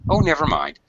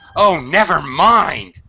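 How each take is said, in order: First: It is said in a calm, polite tone. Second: It is said in a frustrated, exasperated tone. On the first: It doesn't matter, it's not a problem. "It can be a very polite, uh, you know, don't worry about it" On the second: Forget it, you're useless. "the intonation is quite a lot different"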